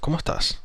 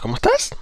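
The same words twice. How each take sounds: First: The pitch stays level or falls at the end. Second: The pitch rises at the end. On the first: The speaker sounds confident. The speaker calls it right. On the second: The speaker sounds unsure. The speaker calls it wrong. "No es"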